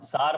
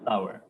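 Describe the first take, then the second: First: The vowel is a plain 'ar' sound. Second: The vowel is an 'ow' glide sound. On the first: The speaker calls it wrong. "सार मत बोलना" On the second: The speaker calls it right. "Good word"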